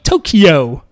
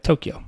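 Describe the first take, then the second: First: One syllable is stressed more than the others. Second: All syllables are given equal weight. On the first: This is how English speakers say it. "we would be like" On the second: This is how Japanese speakers say it. "where they'd be like"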